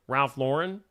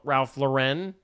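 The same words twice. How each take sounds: First: Lauren said as LOR-un, questioning; Lauren stressed at the start, LOR-un; first-syllable Lauren. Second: Lauren said as luh-REN, questioning; Lauren stressed at the end, luh-REN; second-syllable Lauren. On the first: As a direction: try Ralph Lauren as Ralph LOR-un. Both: Shown as a demonstration. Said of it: "Is it Lauren or Lauren".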